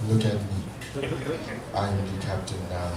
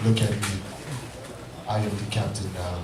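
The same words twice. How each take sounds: First: Much lower and softer, dead stare; low, quiet, menacing stare; deadpan captain line. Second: Much lower, deep and menacing; captain movie line. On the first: Shown as a demonstration. Stranger picked up while smoking, deep and menacing. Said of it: "look them dead in the eyes and go". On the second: Retold or imitated. Husband answers wife about bills, deep and menacing. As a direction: drop way down, dead serious threat. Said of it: "I was like".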